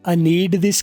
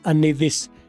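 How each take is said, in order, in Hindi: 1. need के अंत में d बोला जाता है। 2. need के अंत में d साइलेंट है। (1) "की बजाय" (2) "डी की आवाज हम साइलेंट कर देंगे"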